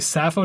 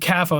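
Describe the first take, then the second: First: The word begins with an S sound. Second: The word begins with a K sound. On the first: "Does anyone pronounce it as an S?" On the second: "That's what I'm calling it"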